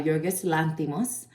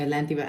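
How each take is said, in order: First: Yorgos Lanthimos said with a light Spanish accent. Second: Said in the usual way. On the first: Real, not acted. Movie reviewer naming the director in Spanish accent. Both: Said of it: "I don't know why I put a Spanish accent on it".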